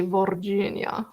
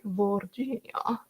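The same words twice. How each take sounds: First: Virginia said as vor-JEE-nya; Virginia as Vorginia. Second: Virginia slowly, vor-ZHEE-nya; John Carter movie pronunciation. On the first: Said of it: "I wanna say Virginia". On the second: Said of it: "John Carter". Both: Shown as a demonstration.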